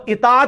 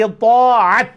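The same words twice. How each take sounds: First: "اطاعت" with a plain light t, "itaat"; still-wrong Urdu form. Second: "اطاعت" loud, with heavy "To" and throaty ain, "i-Too-'at"; full Arabic form. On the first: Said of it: "بھی نہیں". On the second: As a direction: boom the thick T and ain in "اطاعت". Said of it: "اور وہ اطاعت بھی نہیں". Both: Shown as a demonstration.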